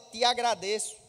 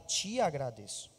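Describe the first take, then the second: First: It is said in a Northeastern Brazilian accent. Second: It is said in a Rio or São Paulo accent. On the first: This is how he talks in everyday life. "Normalmente ele fala" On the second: This is how he talks when praying. "na oração ele vira carioca ou paulista"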